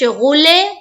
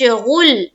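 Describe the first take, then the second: First: The final L bounces with an echoing release. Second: The voice stops dead on the final L. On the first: The speaker calls it wrong. "तो गलत है, यहां पर कलकला नहीं होगा" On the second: The speaker calls it right. "लाम का जो मखरज है वहां पर आवाज बिल्कुल रुक जाएगी"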